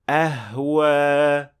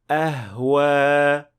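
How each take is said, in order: No difference in how they are said.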